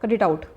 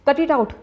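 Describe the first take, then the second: First: It is said in a calm, neutral tone. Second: It is said in an angry tone.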